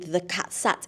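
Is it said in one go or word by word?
one go. The words run together without pauses.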